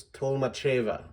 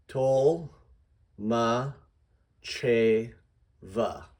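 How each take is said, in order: First: "Tolmacheva" run together, weight on "che"; whole surname, joined up. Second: "Tol, ma, che, va" as separate syllables, a pause after each. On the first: Teacher models the assembled surname, joined-up "Tolmacheva". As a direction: say "Tolmacheva" as one word, stressing "che". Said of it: "this is gonna be bigger". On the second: Teacher breaks down a surname for readers, syllable by syllable. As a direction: sound out "Tol", "ma", "che", "va" one at a time. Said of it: "Here's how I would do that". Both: Shown as a demonstration.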